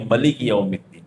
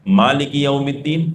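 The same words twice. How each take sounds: First: ملک recited with a short first a, ma-lik; clipped recitation, ملک said as quick ma-lik; reading with short a. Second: مالک recited with a long first a, maa-lik, slowly; drawn-out Quranic recitation, مالک stretched as maa-lik; reading with long a. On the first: Imam recites the other reading: ملک with a short ma. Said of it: "دوسرا لہجہ ہے ملک یوم الدین". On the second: Imam recites to the congregation: مالک with a long maa. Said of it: "سبع عشرہ کے اندر پڑھتے ہیں". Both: Shown as a demonstration.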